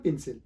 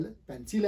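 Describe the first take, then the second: First: "पेंसिल" as PIN-sil; short i in place of e in पेंसिल; wrong pronunciation. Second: "पेंसिल" with open e, PEN-sil; correct pronunciation. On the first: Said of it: "not पेंसिल". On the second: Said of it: "ये actual word है". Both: Shown as a demonstration.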